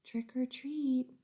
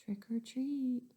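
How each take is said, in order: First: Slow, a touch louder; boy repeating a little louder. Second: Slow whispered trick or treat; boy asking very softly. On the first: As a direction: try again a bit louder. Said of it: "He said a little louder". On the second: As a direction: breathe it out slowly. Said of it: "so he said very softly". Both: Acted.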